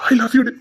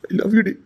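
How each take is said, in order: First: "I love you டி" said louder, "I" stressed; insist, lift the voice on "I"; "I love you டி" with more force; louder second declaration. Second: Said in the usual way. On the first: Acted. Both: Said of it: "repeated louder".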